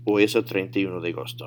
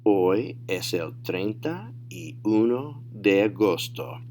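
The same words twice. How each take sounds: First: Quick, run-together Spanish answer; fast fluent demo; natural speed. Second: Slow, word-by-word model answer; deliberate teacher demo; slow, careful model. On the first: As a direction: say "Hoy es el treinta y uno de agosto" briskly in one go. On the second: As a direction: say "Hoy es el treinta y uno de agosto" slowly for learners. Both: Shown as a demonstration. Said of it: "say them at natural speed".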